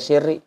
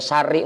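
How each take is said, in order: First: The first vowel of the name is i. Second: The first vowel of the name is a. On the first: "mau dibaca Sirri" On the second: "mau dibaca Sari"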